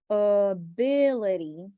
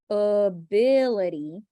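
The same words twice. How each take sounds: The two takes are said the same way.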